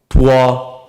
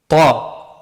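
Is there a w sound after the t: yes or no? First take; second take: yes; no. First: A w sound follows the t before the vowel. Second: The t goes straight into the vowel. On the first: The speaker calls it wrong. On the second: The speaker calls it right.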